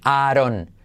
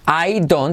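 First: The words blur into one short two-syllable form. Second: Both words are said fully and clearly.

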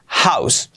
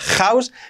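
First: The initial h is a light aspiration. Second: The initial h is not a light aspiration. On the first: The speaker calls it right. "con la H aspirada" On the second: The speaker calls it wrong. "nada de house"

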